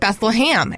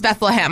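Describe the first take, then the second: First: The last syllable sounds like 'ham'. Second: The last syllable sounds like 'hem'. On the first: This is how locals in North Georgia say it. "I grew up calling it Beth-LUH-HAM" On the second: This is the standard biblical pronunciation. "biblically, it's Bethlehem"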